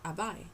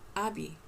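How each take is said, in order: First: The final vowel sounds like 'eye'. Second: The final vowel sounds like 'ee'. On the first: The speaker calls it wrong. "It's not Abai" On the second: The speaker calls it right. "it's pronounced like a E"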